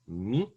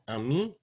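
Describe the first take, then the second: First: The first vowel is dropped almost completely. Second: The first vowel is fully pronounced. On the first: "So ami can become mi for mother" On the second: "This first a becomes a really short uh, schwa if you say it quickly enough"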